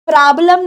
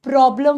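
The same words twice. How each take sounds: First: "प्रॉब्लम" with an open aa, praa-blam; wrong pronunciation. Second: "प्रॉब्लम" with a rounded o, PRO-blum; correct pronunciation. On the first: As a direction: flatten the o of "प्रॉब्लम" into aa. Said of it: "नहीं होता". ("प्रॉब्लम" ग़लत, प्राब्लम जैसा) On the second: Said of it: "होता है". ("प्रॉब्लम" सही, गोल ऑ के साथ) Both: Shown as a demonstration.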